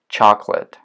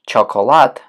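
First: The middle vowel is dropped, giving two syllables. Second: The middle vowel is kept, giving three syllables. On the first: The speaker calls it right. "мы произносим chocolate" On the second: The speaker calls it wrong. "вместо chocolate"

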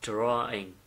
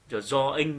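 First: The R sound is heavy, with a curled tongue. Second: The R sound is light, without a curled tongue. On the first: The speaker calls it right. "Mà phải là âm R nặng. Nó phải cong lưỡi lên một chút" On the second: The speaker calls it wrong. "tuyệt đối không được đọc là draw, drawing như thế này"

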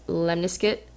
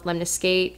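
First: The ending sounds like the end of biscuit. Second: The ending does not sound like biscuit. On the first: This follows the online dictionary. "almost like it's a biscuit" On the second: Other people say it this way. "I've heard teachers call it Lemniscate"

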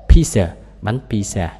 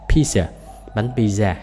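No difference in how they are said.

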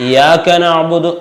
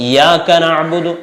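No difference in how they are said.

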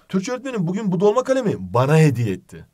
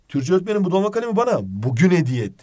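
First: The stress falls on the word bana. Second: The stress falls on the word bugün. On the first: It was given to me, not to anyone else. "Burada dolaylı tümlece vurgu var" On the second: It was given today. "Yani burada zamana vurgu var"

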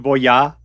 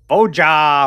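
First: The name is said with a European accent. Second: The name is said with an American accent. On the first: "Or it could be Voja, but I don't pronounce it like a European" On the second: "I'm American, baby"

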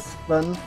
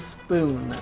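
First: The vowel is a short 'u' sound. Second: The vowel is a long 'oo' sound. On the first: The speaker calls it wrong. "I say spun" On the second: The speaker calls it right. "I don't say spoon"

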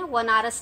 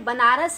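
First: The word begins with a 'v' sound. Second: The word begins with a 'b' sound. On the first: The speaker calls it wrong. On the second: The speaker calls it right.

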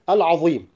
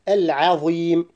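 First: The ayn sound is heavy and thick. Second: The ayn sound is light and thin. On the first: The speaker calls it wrong. "الخطأ هو تفخيم العين مع الضاء" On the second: The speaker calls it right. "الصحيح العظيم"

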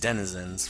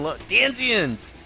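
First: The word is said as 'Denizens'. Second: The word is said as 'Danzians'. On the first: The speaker calls it right. "it was Denizens" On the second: The speaker calls it wrong. "I said that wrong"

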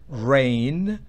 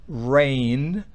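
No difference in how they are said.

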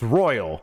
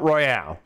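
First: It sounds like the ordinary English word royal. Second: It ends in a drawn-out final syllable, royale. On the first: The speaker calls it right. "it's actually pronounced Royal" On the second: The speaker calls it wrong. "not Royale"

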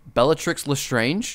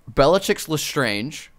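First: The middle of Bellatrix has a tr sound. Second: The middle of Bellatrix has a ch sound. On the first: The speaker calls it right. "There you go" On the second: The speaker calls it wrong. "you said ch instead of tr"

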